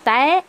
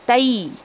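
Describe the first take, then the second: First: The syllable ends in a flat 'ay' vowel. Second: The syllable ends gliding into an 'ee' sound. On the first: The speaker calls it wrong. "तय ऐसा नहीं, एक ही आवाज़ नहीं आनी चाहिए" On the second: The speaker calls it right. "बल्कि ई की आवाज़ आनी चाहिए"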